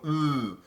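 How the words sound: The sound has a forward, nasal buzz. The speaker calls it right. "I want ooh. It's like a nasal buzziness"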